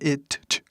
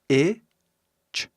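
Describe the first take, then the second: First: A separate t sound is heard before ch. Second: No separate t sound is heard before ch. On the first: The speaker calls it wrong. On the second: The speaker calls it right.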